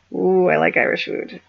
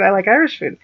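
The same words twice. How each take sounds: First: "Ooh, I like Irish food" crooned in a put-on voice; playful cooing. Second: Said in the usual way. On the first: Vlogger joking about Irish food, playful put-on voice.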